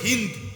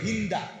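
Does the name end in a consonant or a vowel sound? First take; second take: consonant; vowel. First: The name ends on the consonant 'd'. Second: The name ends with an added 'a' vowel. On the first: The speaker calls it right. "মূলত হলো হিন্দ, আকারটা নাই" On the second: The speaker calls it wrong. "আমাদের দেশে উচ্চারণে বলে হিন্দা"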